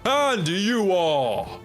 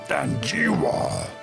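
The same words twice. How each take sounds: First: It is said in a smoother, non-growly voice. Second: It is said in a deep, growly voice.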